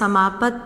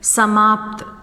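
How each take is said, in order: First: A short vowel separates the p and t sounds. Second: The p and t sounds join with no vowel. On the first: The speaker calls it wrong. "हम लोग यहाँ पे समापत नहीं बोलते हैं" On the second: The speaker calls it right. "बल्कि बोलते हैं समाप्त"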